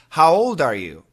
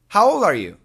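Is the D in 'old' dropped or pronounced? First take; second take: pronounced; dropped. First: The D at the end of old is pronounced. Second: The D at the end of old is dropped. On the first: "perfect pronunciation, normal style" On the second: "many Americans will say"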